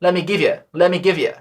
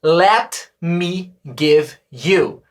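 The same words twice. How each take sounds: First: Quick casual spoken English; fast native contraction. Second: Careful textbook reading; full uncontracted pronunciation; slow written form. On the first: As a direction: Let me give you blurred into lemme-givya. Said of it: "a gente fala rápido". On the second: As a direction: Let me give you very slow, every word clear. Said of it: "Sabe o que significa isso". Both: Shown as a demonstration.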